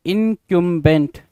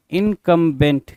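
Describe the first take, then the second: First: इनकम्बेंट said slowly as "in-KYUM-bent"; "kyum" pronunciation. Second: इनकम्बेंट said slowly as "in-KUM-bent"; "kum" pronunciation. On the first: Teacher reading out the new word, इनकम्बेंट as "in-kyum-bent". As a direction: say इनकम्बेंट with a y-glide, "kyum" in the middle. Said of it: "कुछ लोग इसको इनकम्बेंट पढ़ सकते हैं". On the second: Teacher giving the other reading, इनकम्बेंट as "in-kum-bent". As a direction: say इनकम्बेंट with a plain "kum", no y-glide. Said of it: "कुछ लोग इनकम्बेंट पढ़ेंगे". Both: Shown as a demonstration.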